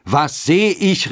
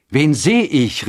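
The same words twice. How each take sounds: First: Drawn-out, very high exclamation; high, stretched amazed question; astonished cry. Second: High, loud exclaimed question; raised, amazed call; astonished cry. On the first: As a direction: cry out slowly in amazement, like the fathers. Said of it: "riefen die Väter". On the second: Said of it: "riefen die Mütter". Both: A narrator's reading.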